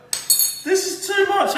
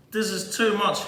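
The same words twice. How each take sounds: First: Much higher, slow, hammed-up swoon of emotion; overcome with emotion. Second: Said in the usual way. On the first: Chef swooning over his ossobuco, hammed-up emotion. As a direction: melt over the dish like it's too beautiful to bear. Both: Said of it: "I'm getting so emotional".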